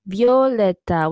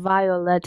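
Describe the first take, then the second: First: The word is said in a Spanish-like way. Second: The word is said in an English-like way. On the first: "kind of how you say it in Spanish" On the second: "it's not"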